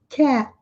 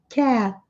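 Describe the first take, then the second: No difference in how they are said.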